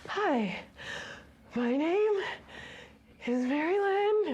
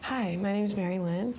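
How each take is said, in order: First: She says it awkwardly, sounding very uncomfortable. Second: She says it at ease, in a normal voice.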